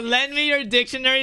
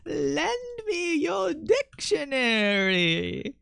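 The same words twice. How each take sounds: First: Said in the usual way. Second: "Lend me your dictionary" slow, high, rising and drawn out; drawn-out high singsong. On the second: Shown as a demonstration. To stream chat, a slow high singsong code phrase. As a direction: stretch each word high and slow. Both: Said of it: "is a good one".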